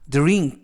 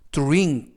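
First: The dr starts with a plain d sound. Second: The dr starts with a t-like sound. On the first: "DR은 이중 자음으로써 드르" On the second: "드르보다는 뚜르"

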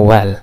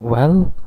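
First: The tune sounds final, like a complete statement. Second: The tune sounds questioning, like asking something. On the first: It is given as an answer. "ये आमतौर पर एक answer होता है" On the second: It is asked as a question. "तो ये question के तौर पर यूज़ होता है"

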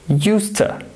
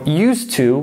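First: The words blend into one reduced word, useta. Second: Both words are said fully and separately. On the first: "becomes used to" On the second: "Used to becomes"

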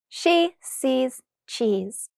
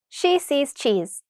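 First: The phrase is said very slowly. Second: The phrase is said very quickly. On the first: "once very slowly" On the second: "the second time very quickly"

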